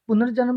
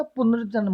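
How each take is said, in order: First: पुनर्जन्म with an extra vowel, "punar-janam"; wrong pronunciation. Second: पुनर्जन्म closing on joined nm, "punar-janm"; correct pronunciation. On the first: Teacher rejecting the wrong form, mispronounced. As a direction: loosen the end of पुनर्जन्म into "janam". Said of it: "नहीं होता". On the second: Teacher giving the right form, correctly pronounced. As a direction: keep the nm tight in पुनर्जन्म. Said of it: "होता है". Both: Shown as a demonstration.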